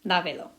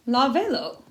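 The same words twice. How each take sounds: First: Lávelo stressed as LA-ve-lo; LA emphasized, then ve-lo falling away; stress on first syllable. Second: Lávelo misstressed as la-VE-lo; stress on second-to-last syllable. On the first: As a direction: keep the weight on LA in Lávelo. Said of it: "we gotta put an accent on there". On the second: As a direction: push the stress onto VE in lávelo. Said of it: "emphasis wants to go to the second to last". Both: Shown as a demonstration.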